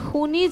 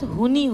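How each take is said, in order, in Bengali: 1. শব্দটি একটি রুক্ষ kh-এর মতো ধ্বনি দিয়ে শুরু হয়। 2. শব্দটি একটি সাধারণ h ধ্বনি দিয়ে শুরু হয়। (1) "সেই স উচ্চাৰণটো শুদ্ধ হ'ব লাগে" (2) "সৰ জেগাত হ হৈ গৈছে"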